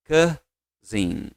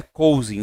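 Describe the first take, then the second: First: Cousin said softly as kuh-zin; correct pronunciation. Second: Cousin said as coh-zeen with an O sound; wrong pronunciation. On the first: Teacher models the right cousin for class to repeat. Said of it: "Diga comigo, ó". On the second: Teacher shows students the wrong way to say cousin. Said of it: "não é cousin". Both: Shown as a demonstration.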